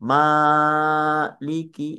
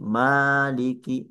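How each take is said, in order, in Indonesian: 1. Vokal panjang dibaca terlalu panjang. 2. Vokal panjang dibaca dengan panjang yang normal.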